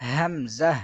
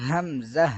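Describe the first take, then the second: The two takes are said the same way.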